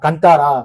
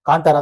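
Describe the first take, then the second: First: The first vowel is short. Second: The first vowel is long. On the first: "சில பேர் கந்தாரான்னு produce pronounce பண்றாங்க" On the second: "சில பேர் காந்தாரான்னு pronounce பண்றாங்க. காந்தாரா தான் கேட்க நல்லா இருக்கு"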